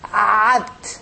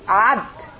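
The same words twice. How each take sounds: First: The word starts with a throaty ain sound. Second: The word starts with a plain a vowel. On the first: The speaker calls it right. "you pronounce the ain very good" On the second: The speaker calls it wrong.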